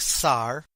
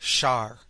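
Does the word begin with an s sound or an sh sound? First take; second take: s sound; sh sound. First: The word begins with a soft s sound. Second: The word begins with an sh sound. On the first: "Some nations pronounce the S with a soft sound like Sar" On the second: "others pronounce it as S H"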